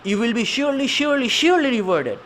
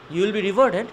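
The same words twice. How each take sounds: First: SURELY three times, high and insistent; emphatic promise. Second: Said in the usual way. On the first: Shown as a demonstration. Teacher showing where Allah puts emphasis, high insistent promise. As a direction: drive home each "surely" in a raised voice. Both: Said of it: "where Allah is putting emphasis".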